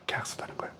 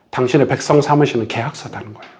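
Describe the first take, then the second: First: Barely audible whispered repeat; whispered echo. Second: Said in the usual way. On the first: Shown as a demonstration. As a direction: breathe the words again as a secret. Whispered echo of previous line. (속삭이듯 되뇌며)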